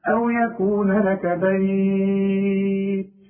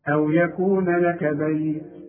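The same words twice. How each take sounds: First: The last word's vowel is stretched for four counts. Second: The last word's vowel is stretched for two counts. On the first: "أربعة" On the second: "حركتين"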